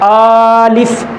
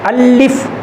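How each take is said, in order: First: The first vowel is drawn out long. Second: The L sound is doubled and held. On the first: "इस तरह लंबा करके तो नहीं पढ़ रहे" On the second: "लाम के ऊपर शद तो नहीं दे रहे"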